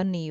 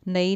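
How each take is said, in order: First: نی said with the right short vowel; correct sound. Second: نئی said with the wrong vowel, as the mistake; wrong sound. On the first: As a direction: model the right way: نی. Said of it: "نی ہوگا". (درست ادائیگی: نی) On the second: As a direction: show نئی as the error to avoid. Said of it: "نئی نہیں ہوگا". (غلط ادائیگی: نئی) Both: Shown as a demonstration.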